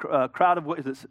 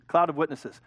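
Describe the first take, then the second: First: "crowd" said by mistake, a hard CR sound; stumbling onto "crowd" instead of "cloud"; slip of the tongue. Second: "cloud" with a clear CL, fixing the slip; correcting to "cloud", said deliberately; self-correction. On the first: Preacher misspeaks the verse, saying crowd. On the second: Preacher fixes his misquote, stressing cloud. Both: Real, not acted.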